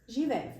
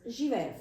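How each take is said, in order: First: The final consonant sounds like f. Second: The final consonant sounds like f.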